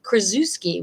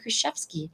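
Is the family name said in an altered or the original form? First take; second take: altered; original. First: The name is said in a simplified, altered form. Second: The name is said in its original, fuller form. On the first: This is how relatives say the name. The speaker calls it wrong. "my brother pronounces it differently" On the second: This is the true form of the name. The speaker calls it right. "when it's really"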